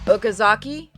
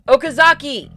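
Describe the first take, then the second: First: The name is said quietly. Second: The name is said loudly.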